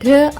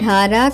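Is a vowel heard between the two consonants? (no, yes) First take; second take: no; yes. First: The two consonants are blended without a vowel. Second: A vowel separates the two consonants. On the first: The speaker calls it right. "ఢ్ర అవుతుంది" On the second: The speaker calls it wrong. "ఢారా కాకుండా"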